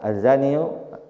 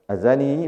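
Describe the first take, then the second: First: The word ends with a full 'iyu' syllable. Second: The word ends with a short plain 'i'. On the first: "bisa aja azaniyu" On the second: "azani bisa"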